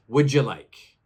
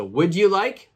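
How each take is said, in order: First: "Would you like" blended as "wouldja like"; joined together. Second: "Would you like" with a full "you" and a rise; separate words. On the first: Teacher contrasting the natural take, words chunked together. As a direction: slur "would you" into one sound. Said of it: "We say it almost like". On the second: Teacher contrasting the careful take, words kept apart. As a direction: keep "you" clear and apart. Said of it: "we don't say each word separately". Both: Shown as a demonstration.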